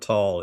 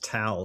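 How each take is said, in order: First: The vowel sounds like the one in 'tall'. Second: The vowel sounds like the one in 'towel'. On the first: The speaker calls it wrong. "I mispronounced the name of the street. It's not Tall" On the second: The speaker calls it right. "so it's Towel Street"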